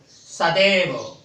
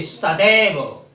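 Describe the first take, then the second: First: सदैव said slowly, syllable by syllable; slowly spelled out. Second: Said in the usual way. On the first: Shown as a demonstration. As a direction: stretch out सदैव for the class. (सदैव धीरे-धीरे, अक्षर-अक्षर) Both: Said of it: "देखा, जैसे सदैव".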